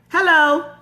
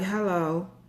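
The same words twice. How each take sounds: First: It is said with big, lively energy. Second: It is said flat, with little energy.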